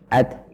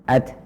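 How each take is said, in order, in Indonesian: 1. Huruf t di akhir berakhir dengan hembusan udara yang ringan. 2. Huruf t di akhir berakhir dengan hembusan udara yang ringan.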